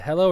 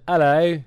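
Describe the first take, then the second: First: Said in the usual way. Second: Australian hello slipping towards British; attempted Australian accent. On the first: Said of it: "is it hello or is it". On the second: Shown as a demonstration. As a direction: try an Aussie "hello" that comes out British. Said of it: "is that British?".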